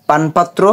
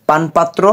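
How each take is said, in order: No difference in how they are said.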